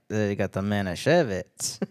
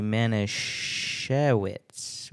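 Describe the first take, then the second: First: Put-on a light Yiddish accent, slow, with a V in Manischewitz; half-hearted Yiddish accent, Manischewitz said with a V; mock Yiddish accent. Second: Manischewitz said slowly with a plain English W; drawn-out Manischewitz with a W sound. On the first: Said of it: "I don't know if I should do that accent". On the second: Shown as a demonstration. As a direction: spell out Manischewitz with a W, not a V. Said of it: "spelled with a W, but I think it's supposed to be a V sound".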